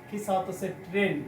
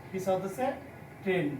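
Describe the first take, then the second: Both takes have the same delivery.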